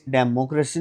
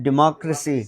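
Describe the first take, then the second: First: डेमोक्रेसी with de as in desk, the rejected way; wrong version. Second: डेमोक्रेसी as di-MAK-ra-si; correct version. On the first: Teacher showing students the wrong डेमोक्रेसी. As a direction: say the rejected डेमोक्रेसी starting deh-mo. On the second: Teacher giving students the right डेमोक्रेसी. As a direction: say डेमोक्रेसी with a short di and stress on mak. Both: Shown as a demonstration. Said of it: "डेमोक्रेसी नहीं".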